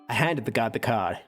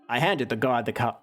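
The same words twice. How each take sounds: First: It is read in a put-on voice. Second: It is read in a natural voice.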